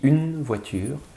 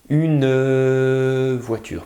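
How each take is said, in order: First: The final e of une is silent. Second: The final e of une is pronounced. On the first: This is ordinary everyday speech. "Quand je parle normalement, je ne le prononce pas" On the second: It helps the listener hear the silent letter. "pour vous aider à entendre la lettre muette"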